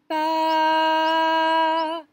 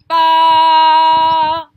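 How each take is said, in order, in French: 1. La syllabe est dite à volume de voix normal. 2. La syllabe est dite fort, avec force. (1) "un son moyen, comme quand je parle normalement" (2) "la force"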